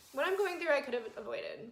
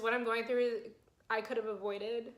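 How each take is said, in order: First: Higher, choked-up pitch after crying; teary retake. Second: Said in the usual way. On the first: Real, not acted. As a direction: say it again with tears in the voice. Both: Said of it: "why am I crying already".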